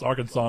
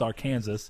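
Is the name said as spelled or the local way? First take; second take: local way; as spelled. First: The name is said the local, unspelled way. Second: The name is said just as it is spelled. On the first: This is how people raised there say it. "I would never pronounce Arkansas unless I was raised here and knew that it was pronounced that way" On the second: This is how it looks from the spelling. "if you look at it, for all intents and purposes, it's Arkansas"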